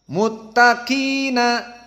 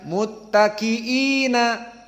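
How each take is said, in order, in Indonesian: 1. Vokal sebelum suku kata terakhir pendek. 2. Vokal sebelum suku kata terakhir panjang. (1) "muttaqina, seperti itu" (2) "Bukan muttaqiina"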